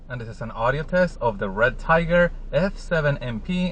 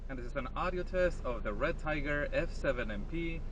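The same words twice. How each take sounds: First: The speaker talks from inside the car. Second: The speaker talks from outside the car. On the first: "I am sitting on the driver's side seat" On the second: "I am standing outside the driver's side door"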